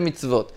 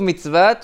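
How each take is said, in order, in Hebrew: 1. היא נאמרת בצורת הרבים הנקראת. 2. היא נאמרת בצורת היחיד הכתובה. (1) "וקוראים את זה מצוות" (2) "זה כתוב מצוות"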